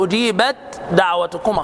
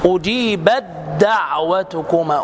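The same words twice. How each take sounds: First: The t is pronounced separately before the d. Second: The t merges into a doubled following d. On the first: The speaker calls it wrong. "لا تقل ... خطأ ادغام" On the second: The speaker calls it right. "التاء مع الدال"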